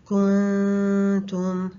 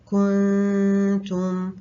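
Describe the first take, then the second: The two takes are said the same way.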